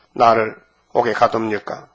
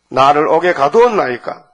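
First: Said in the usual way. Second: Firm, emphatic protest to the king. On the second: Acted. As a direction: protest the imprisonment, pushing the words out. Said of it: "항변하는 거예요". (힘주어 항변하는 말투)

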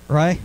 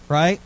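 Both takes have the same delivery.

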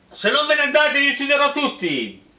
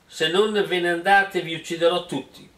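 First: Higher, louder mock shout; hero's yell. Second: Said in the usual way. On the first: The hero threatens the suitors, hammed-up yell. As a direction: belt the threat like a cartoon hero. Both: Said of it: "urlò l'eroe".

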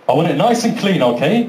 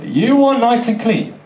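First: Lightly voiced referee, even and level; matter-of-fact referee. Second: Higher-pitched, disbelieving echo; mock incredulous. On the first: Referee instructing two boxers before the fight, matter-of-fact. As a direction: lay down the rule evenly. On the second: Boxer answering the referee's request, mock-incredulous. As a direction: throw the rule back in disbelief.

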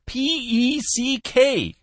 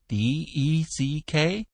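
First: High, slow letter-by-letter call; exasperated spelling. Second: Slow, raised, questioning spelling; puzzled query. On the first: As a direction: spell it out for someone who can't hear. Caller spells name to listener. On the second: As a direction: echo the letters back unsure. Cook mishears and queries spelling. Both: A narrator's reading.

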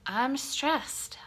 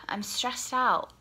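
First: Said in the usual way. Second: Stressed whisper. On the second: Real, not acted. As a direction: breathe it out in a whisper.

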